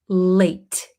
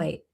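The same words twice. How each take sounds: First: The final T is strong and clearly released. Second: The final T is swallowed and barely heard. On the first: The speaker calls it wrong. "We don't pronounce it late" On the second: The speaker calls it right. "we kind of swallow this T"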